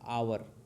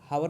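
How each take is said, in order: First: The word begins with a vowel sound. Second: The word begins with an h sound. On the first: The speaker calls it right. "यच silent है" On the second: The speaker calls it wrong. "हावर नहीं पढ़ा जाएगा, गलत"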